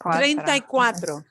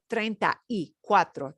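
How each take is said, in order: First: The vowels slide together into one quick stretch. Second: Each word is said separately and carefully. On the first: The speaker calls it right. "They're going to sound like they're joining" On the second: The speaker calls it wrong. "It will not sound like treinta y cuatro. They're not going to enunciate it like that"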